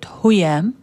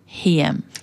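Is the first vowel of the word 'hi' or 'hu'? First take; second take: hu; hi. First: The first vowel is a rounded 'u' sound. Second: The first vowel is a front 'i' sound. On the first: The speaker calls it wrong. "They don't say it huyam" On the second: The speaker calls it right. "it's the name of an Arabic woman. Hiyam"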